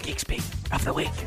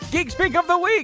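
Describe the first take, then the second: First: It is said in a whisper. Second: It is said loudly and proudly.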